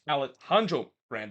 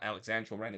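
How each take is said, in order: First: The first name has an 'h' sound in the middle. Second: The first name has a 'ks' sound in the middle. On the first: The speaker calls it right. "it's Alejandro Brand" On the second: The speaker calls it wrong. "It's not Alexandro Brand"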